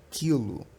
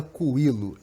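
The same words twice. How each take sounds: First: "quilo" as KI-lo, K straight into the I; silent U. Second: "coilo", quilo said with an audible U, ku-I-lo; U wrongly sounded. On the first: Teacher correcting the wrong form, "quilo" with silent U. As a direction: say "quilo" with no "oo" after the K. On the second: Teacher showing what we don't say, "coilo" with sounded U. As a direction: put a clear "oo" before the I in "coilo". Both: Shown as a demonstration. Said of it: "A gente não fala coilo".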